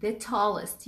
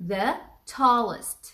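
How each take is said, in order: First: Said in the usual way. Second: "the tallest" drawn out very slowly, word by word; teacher stretching "the tallest" at x0.3; slow model phrase. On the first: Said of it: "يعني الأطول". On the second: Shown as a demonstration. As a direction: spell it out slowly for the class. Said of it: "عشان احنا بنقول ال".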